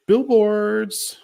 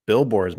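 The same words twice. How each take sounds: First: High, punchy mock quote of Tony; eager answer. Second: Said in the usual way. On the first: Imitating Tony's eager answer about billboards, high and punchy. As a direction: blurt the word out high and bright.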